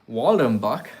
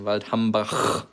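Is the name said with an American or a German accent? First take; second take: American; German. First: It is said with an American accent. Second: It is said with a German accent. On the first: "like the Americans like to pronounce it" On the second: "you can master the right pronunciation"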